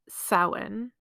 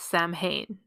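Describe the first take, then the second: First: The middle of the word has a W sound. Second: The middle of the word has an M sound. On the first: The speaker calls it right. "the word Samhain" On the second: The speaker calls it wrong. "commonly mispronounced by English speakers as Samhain"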